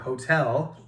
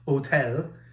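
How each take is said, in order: First: The word is said with English pronunciation. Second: The word is said with French pronunciation.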